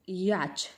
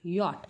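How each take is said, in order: First: The word ends with a 'ch' sound. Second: The word ends with a 't' sound. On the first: The speaker calls it wrong. "पण हा चुकीचा उच्चार आहे" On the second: The speaker calls it right. "हा काय आहे बघा"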